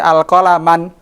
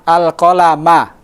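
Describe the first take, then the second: First: The word ends with an added n sound. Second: The word ends on a vowel, no final n. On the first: The speaker calls it wrong. "tidak boleh al-qalaman" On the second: The speaker calls it right. "Begitu pula ketika di fathah"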